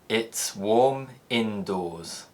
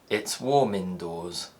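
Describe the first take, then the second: First: Slow, with a gap between the words. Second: Natural speed, with the words linked together.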